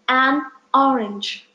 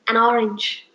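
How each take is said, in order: First: A small pause separates the two words. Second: The two words run together without a pause. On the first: It is recognized as two separate words. The speaker calls it right. "if I will give a small pause between these two words" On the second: It sounds like a single unknown word. The speaker calls it wrong. "Because I spoke the word in this way"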